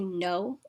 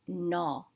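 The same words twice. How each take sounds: First: The vowel sounds like English 'no'. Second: The vowel sounds closer to 'na'. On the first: The speaker calls it wrong. "Some people say no, like yes and no" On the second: The speaker calls it right. "it's pronounced no, sounding more like the word na"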